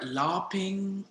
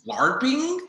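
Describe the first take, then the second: First: It is said in the speaker's usual accent. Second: It is said in a put-on New Jersey accent.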